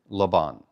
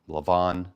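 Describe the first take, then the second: First: The middle consonant is a b sound. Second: The middle consonant is a v sound. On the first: The speaker calls it wrong. "not Laban" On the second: The speaker calls it right. "I don't see a dagesh, so it looks like Lavan"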